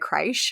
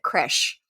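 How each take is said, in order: First: The word does not rhyme with fresh. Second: The word rhymes with fresh. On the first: This is the regional Australian pronunciation. "in Australia, we do say creche" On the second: This is the pronunciation most people consider correct. "it's actually pronounced"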